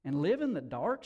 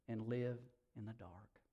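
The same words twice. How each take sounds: First: "And live in the dark?" lifted at the end as a question. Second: "and live in the dark" low, soft and falling away; grave confirmation. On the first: Woman questioning the stranger, "And live in the dark?" asked with a rise. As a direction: ask "And live in the dark?" with rising tune. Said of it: "she asked". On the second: Stranger confirming to the woman, "and live in the dark" low and soft. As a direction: answer "and live in the dark" quietly, as a settled fact. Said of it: "he said". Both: A narrator's reading.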